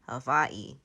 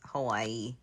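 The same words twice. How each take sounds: First: The middle consonant is a V sound. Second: The middle consonant is a W sound. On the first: This is how native speakers of the place say it. "the native Hawaiians pronounced it with a, a with a V" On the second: This is how people from elsewhere say it. "non-native Hawaiians just say Hawaii"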